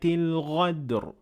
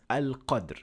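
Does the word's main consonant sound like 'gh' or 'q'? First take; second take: gh; q. First: The word is said with a throaty 'gh' sound. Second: The word is said with a deep 'q' sound. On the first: It changes the meaning of the verse. The speaker calls it wrong. "they turn qaf into ghain" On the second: It keeps the original meaning of the verse. The speaker calls it right. "the original ayah"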